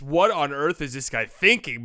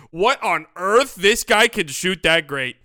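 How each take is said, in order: First: Slow, puzzled mock question; doubtful disbelief. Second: Louder, slow, stunned praise; amazed. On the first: Fan doubting a wild shot in midair, puzzled disbelief. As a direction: sound unsure if the shot is smart. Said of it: "But in midair, it's". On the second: Retold or imitated. Fan reacting as the shot goes in, loud amazement. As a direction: marvel as the shot drops. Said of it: "he goes in and he goes".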